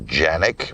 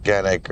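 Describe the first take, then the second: First: The name begins with a soft J sound. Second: The name begins with a hard K sound. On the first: This is the original pronunciation of the name. "the purest, correct way to say the name is Janik" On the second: This is how people in the US say it. "everybody in the U S calls it Canik"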